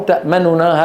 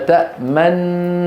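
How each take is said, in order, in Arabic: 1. تفصل بين النونين حركة خفيفة سريعة. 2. تندمج النونان في نون واحدة طويلة. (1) "وفي الروم تأمننا هذا سريع" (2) "هذا في الإشمام"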